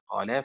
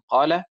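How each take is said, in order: First: The stress is on the last syllable. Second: The stress is on the first syllable. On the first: The speaker calls it wrong. "وليست" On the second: The speaker calls it right. "النبر على حركة القاف ... بالأداء الصحيح"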